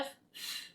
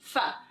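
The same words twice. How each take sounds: First: A bare breathy f sound with no vowel. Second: The f sound ends with an added vowel. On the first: The speaker calls it right. "we're just using our breath" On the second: The speaker calls it wrong. "adding this vowel sound to the end"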